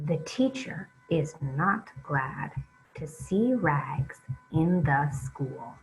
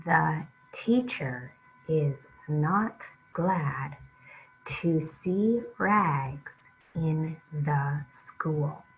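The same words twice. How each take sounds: First: Flowing read-along at a steadier pace; smoother reading. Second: Slow, halting read-along, each word apart. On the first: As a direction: read it smoothly, keep it moving. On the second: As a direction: read it slowly, one word at a time for the kids. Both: Shown as a demonstration. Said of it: "read it a little bit more smoothly now".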